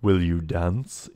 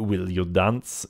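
First: Said in the usual way. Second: Put-on slow invitation in a light French accent. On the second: Bewigged man asks player to dance, light French accent. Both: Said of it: "he asks in a light French accent".

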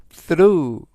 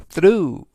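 First: Second model of "through" to copy; careful English "through"; model pronunciation. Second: "through" with stress on the roo sound, gh silent; louder teacher model of "through"; model pronunciation. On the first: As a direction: repeat "through", gh silent. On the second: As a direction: say "through" slowly and clearly. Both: Shown as a demonstration. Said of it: "through라고 발음하시면 되겠고요".

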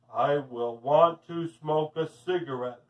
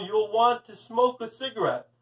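First: Low trance-like repetition; entranced woman. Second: Said in the usual way. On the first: A narrator's reading. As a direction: echo it lower, as if hypnotized. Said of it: "the woman repeated".

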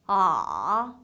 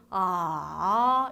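First: 아 dropping low, then lifting slightly; third tone. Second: 아 dipping then rising too long; wrong third tone. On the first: Teacher showing third tone, low dipping 아. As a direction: push 아 down low with a small bounce up. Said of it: "내려갔다 살짝 올라가는데". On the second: Teacher showing wrong third tone, 아 overlong rise. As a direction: let 아 fall and climb too far back up. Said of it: "이거 아니고요". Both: Shown as a demonstration.

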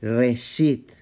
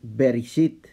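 First: Reshit with no B sound; Reshit, the B dropped; silent B. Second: Bereshit with the initial B sounded; written form. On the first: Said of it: "se entendería en el vocablo como". (Reshit, sin la B, bet muda) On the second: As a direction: Bereshit said in full with B. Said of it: "se dice". (Bereshit pronunciado con la B inicial) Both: Shown as a demonstration.

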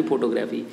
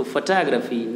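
First: फोटोग्राफी as "PHO-to-gra-fee", lower; wrong photography. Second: फोटोग्राफी as "fuh-TAA-gruh-fee", lower; weak first vowel, stressed TAA in फोटोग्राफी; correct photography. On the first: Teacher dismisses the wrong form, फोटोग्राफी as "PHO-to-gra-fee". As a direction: keep both full o sounds in फोटोग्राफी. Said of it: "ना कि फोटोग्राफी". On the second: Teacher sums up for pupils, फोटोग्राफी as "fuh-TAA-gruh-fee". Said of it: "ना कि". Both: Shown as a demonstration.

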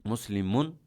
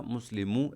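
First: মুসলিমুন ending in a clear "un"; double pesh ending. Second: মুসলিমু ending in an open "u", no n; single pesh ending. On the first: Teacher showing the double-pesh ending, মুসলিমুন with "-un". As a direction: sound the final n in মুসলিমুন. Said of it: "double পেশ হচ্ছে". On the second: Teacher showing the single-pesh ending, মুসলিমু with bare "-u". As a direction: drop the n, end মুসলিমু on "u". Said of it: "এক পেশ হইলো". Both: Shown as a demonstration.

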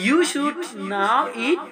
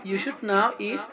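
First: Very slow, higher, stretched; slow model phrase. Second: Said in the usual way. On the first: Shown as a demonstration. Teacher modelling the sentence slowly. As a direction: stretch every word.

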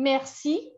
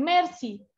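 First: Merci stressed on the last syllable, rising; French merci, mer-SI; French pronunciation. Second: Merci stressed on the first syllable, falling; Catalan pronunciation. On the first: Teacher showing what Catalans don't say, merci stressed at the end. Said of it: "ellos no dicen merci". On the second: Teacher showing how Catalans say it, merci stressed up front. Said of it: "sino dicen merci". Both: Shown as a demonstration.

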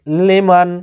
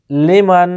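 The two takes are said the same way.

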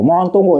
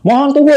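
First: Said in the usual way. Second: Mock TV screen voice; reading the screen. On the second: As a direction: announce the on-screen notice like a machine. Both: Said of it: "katanya sob ya tuh".

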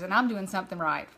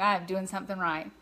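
First: Said in the usual way. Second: I am said in full with weight on am; emphatic I am, spelled out and stressed. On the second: Real, not acted. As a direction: punch the word am, not I'm.

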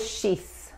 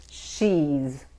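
First: "she's" ending in a hissed unvoiced S, the mistake; wrong S sound. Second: "she's" ending in a buzzing voiced Z; correct Z sound. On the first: Teacher showing students the wrong way: "she's" ending in a hissed S. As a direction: say "she's" with a sharp S at the end. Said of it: "Tampoco es she's". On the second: Teacher showing students the right way: "she's" ending in a buzzing Z. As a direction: finish "she's" on a soft buzzing Z. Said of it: "Tampoco es she's, es she's". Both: Shown as a demonstration.

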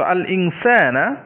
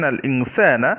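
First: আল ইনসানা said slowly, with the final আ of ইনসানা clearly opened; slow আল ইনসানা that shows off the জবর at the end; stressed fatha ending. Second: Said in the usual way. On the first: Shown as a demonstration. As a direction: draw out ইনসানা and lean on its last আ. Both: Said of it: "ইনসানা শেষে আমরা উচ্চারণটা জবর উচ্চারণ করলাম".

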